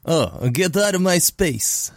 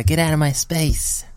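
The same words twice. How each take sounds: First: Put-on Russian accent. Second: A hint of Mike Tyson, slow and whispered; breathy slow whisper of a boxer's threat. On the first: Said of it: "your faux Romanian Russian accent". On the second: Friend asks him for his Mike Tyson impression, whispered. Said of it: "in your Mike Tyson voice".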